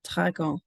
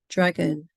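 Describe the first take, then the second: First: It is said with French pronunciation. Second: It is said with English pronunciation. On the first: "and then the target language" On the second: "the English pronunciation of the word"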